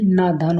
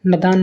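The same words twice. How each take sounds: First: नादान with a long first aa; correct long vowel. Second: नदान with a short first a; wrong vowel length. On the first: Teacher corrects students, long first vowel. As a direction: draw out naa in नादान. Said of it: "होता है". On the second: Teacher shows students the mistake, short first vowel. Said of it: "नहीं". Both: Shown as a demonstration.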